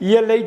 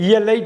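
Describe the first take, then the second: No difference in how they are said.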